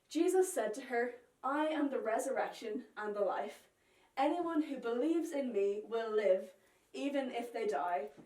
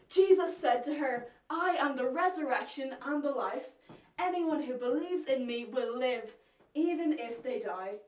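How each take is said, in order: First: It is read in a calm, plain way. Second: It is said in a very excited way.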